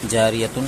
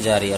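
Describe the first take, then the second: First: The word ends with a full tun sound. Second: The word ends with a silent h sound. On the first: The reader continues without stopping. "जारियतुन है असल में" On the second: The reader stops on this word. "आयत करने की वजह से यहाँ में देखिए साकिन लग गया"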